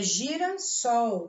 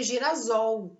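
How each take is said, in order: First: The consonant before -sol sounds like S. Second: The consonant before -sol sounds like Z. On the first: The speaker calls it right. "é girassol" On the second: The speaker calls it wrong. "Se eu não dobrar o S"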